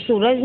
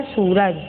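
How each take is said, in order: First: सूरज with a short u, "suraj"; mispronounced सूरज. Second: Said in the usual way. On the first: Shown as a demonstration. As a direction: clip the first vowel of सूरज to a short u. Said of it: "सूरज नहीं होता है". (सूरज को छोटे उ से "सुरज" बोलना) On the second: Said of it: "शुद्ध क्या है?".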